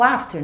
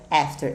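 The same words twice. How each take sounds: First: The first vowel is an open 'ah' sound. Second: The first vowel sounds close to 'eh'. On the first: The speaker calls it wrong. "todo mundo vem com esse papo de after" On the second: The speaker calls it right. "Esse A vai ter um sonzinho de E"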